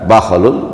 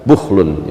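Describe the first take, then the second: First: The word begins with an 'a' vowel. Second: The word begins with a 'u' vowel. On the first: "bisa dibaca bakholun" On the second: "bisa dibaca bukhlun"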